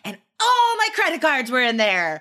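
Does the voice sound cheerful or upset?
cheerful. The voice sounds light and cheerful. The bad event does not seem to matter. The speaker calls it wrong. "That would be really weird"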